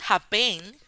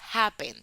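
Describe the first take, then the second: First: The stress is on the second syllable. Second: The stress is on the first syllable. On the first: The speaker calls it wrong. "No decimos happen" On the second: The speaker calls it right. "decimos happen. Happen, la sílaba ah, tónica es ha"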